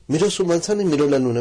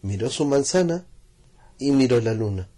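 First: Fast, higher and louder; fast repetition. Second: Said in the usual way. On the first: A narrator's reading. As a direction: rush the glances. Narrator speeds repeated glances.

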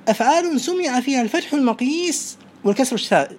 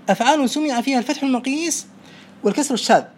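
The two takes are said the same way.

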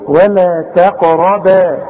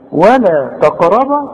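First: ولا تقربا very slowly with a thin T; light ta. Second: ولا تقربا with the T thickened toward ط; wrong heavy ta. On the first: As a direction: draw out تقربا, light T, heavy QA-RA, light BA. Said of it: "ما انت قدامك ت". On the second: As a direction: make the ت of تقربا emphatic. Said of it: "هو في حاجة تقرا طا؟". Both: Shown as a demonstration.

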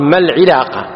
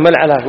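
First: العلاقة with an i after the ع; correct kasra form. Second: العلاقة with an a after the ع; common mistaken form. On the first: Shown as a demonstration. Teacher gives the right form, العلاقة with kasra. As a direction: say العلاقة as "al-ʿilaqa". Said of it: "صواب نقول". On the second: Retold or imitated. Teacher quotes people today, العلاقة with fatha. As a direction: say العلاقة as "al-ʿalaqa". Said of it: "هذا غلط".

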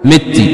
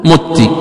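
First: مت said "mitti"; "mitti", i after the mim of مت; incorrect kasra. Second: مت said "mutti"; "mutti", u after the mim of مت; damma on the mim. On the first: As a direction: say مت with a short i. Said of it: "لا يصح كسر". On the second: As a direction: say مت with a short u. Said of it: "بضم الميم". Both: Shown as a demonstration.

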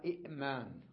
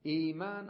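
First: إئمان with short i, glottal catch, then maan; two separate hamzas. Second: إيمان opening on a long smooth ee; long initial ee. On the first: Teacher giving the original form, catch after i. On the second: Teacher giving the everyday form, long ee. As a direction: hold the first vowel of إيمان, no catch. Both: Shown as a demonstration. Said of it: "أصلها إئمان".

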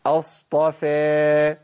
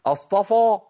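First: اصطفى slow with a light, thin فاء; correct thin faa. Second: اصطفى with a thick, full فاء; heavy faa. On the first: (اصطفى بفاء مرققة) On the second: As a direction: puff up the فاء like فا. (اصطفى بفاء مفخمة خطأ) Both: Shown as a demonstration. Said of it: "ما فيش فا".

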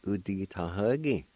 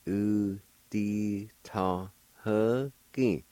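First: Said in the usual way. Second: U di ta ha ki drawn out syllable by syllable; measured teaching pronunciation; slow syllable demo. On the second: Shown as a demonstration. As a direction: say it slowly, sustaining each sound. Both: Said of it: "now I'll pronounce these words".

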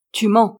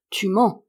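First: Louder, forceful accusation; loud, unflinching challenge; insistent repeat. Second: Contained, moderately raised challenge; cutting in. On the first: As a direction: drive the accusation home. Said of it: "répéta-t-elle en le regardant dans le blanc des yeux". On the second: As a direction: interrupt with a firm accusation. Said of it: "interrompit Douairière Lebrec". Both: A narrator's reading.

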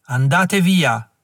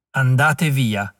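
First: Slow, heavy command with the weight on via; ghostly old man's command. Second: Slow, far-off voice with the weight on andate; distant repeated command. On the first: The old chief warns Klug's men away, slow and commanding. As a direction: drag out andate via, landing hard on via. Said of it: "La voce era venuta da dietro". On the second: The old man repeats his warning to Klug, slow and distant. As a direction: drag out andate via as if from far away. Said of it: "ripeté. La voce veniva da lontano". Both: Acted.

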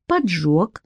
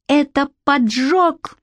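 First: Calm. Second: Higher, slow cry of discovery; shout. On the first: Shnyr calmly confirms the arson to the boy. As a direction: agree coolly, no alarm. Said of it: "спокойно кивнул Шнырь". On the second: Boy realises to Shnyr it is arson, shouting. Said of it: "крикнул я". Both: A narrator's reading.

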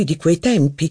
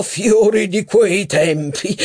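First: Said in the usual way. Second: Fiori di quei tempi echoed high and slow; mock admiring echo. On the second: A narrator's reading. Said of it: "esclamò Legrandin".

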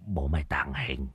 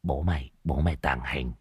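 First: Unvoiced whispered mutter. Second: Much softer, low muttered chant; muttering. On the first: Old Đồng whispering a charm to stay unseen. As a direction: whisper it to yourself, hiding. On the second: Acted. Old Đồng muttering to himself in hiding. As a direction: mutter it under your breath. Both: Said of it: "mồm lẩm bẩm".

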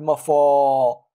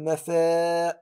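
First: "مفا" with a heavy, thick a; wrong heavy madd. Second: "مفا" with a thin a; right light madd. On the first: Teacher showing the wrong thick madd, louder. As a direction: thicken the alif of "مفا" as a fault. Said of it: "لا أقول". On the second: Teacher showing the right thin madd. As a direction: keep the alif of "مفا" thin. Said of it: "ولكن أقول". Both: Shown as a demonstration.

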